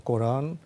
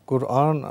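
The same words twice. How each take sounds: First: "কোরআন" as Koraan, o in the first syllable; "কোরআন" with o, not u; pronunciation with o. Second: First "কোরআন" as Kur-aan, with u; "কোরআন" with u in the first syllable; pronunciation with u. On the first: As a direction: say "কোরআন" the Bengali way, Koran. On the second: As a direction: say "কোরআন" as Kur'an, two separate parts. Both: Shown as a demonstration. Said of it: "কোনটি সঠিক উচ্চারণ".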